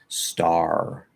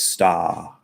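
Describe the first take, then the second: First: The final r is clearly pronounced in the word. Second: The final r is dropped from the word. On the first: "we actually pronounce all those R's, right? So we say water, star" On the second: "in British English, ... They don't pronounce the r's. So star is sta"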